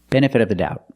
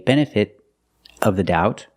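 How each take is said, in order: First: The T in benefit is a quick D. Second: The T in benefit is a stopped T. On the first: "I can make a fast D and say" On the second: "I can use a stop T and say"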